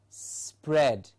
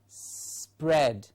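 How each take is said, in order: First: A small s runs straight into pred. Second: A small s runs straight into pred.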